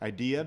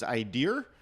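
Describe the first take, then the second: First: It ends in a plain vowel without R. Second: It ends with an added R sound, East Coast style.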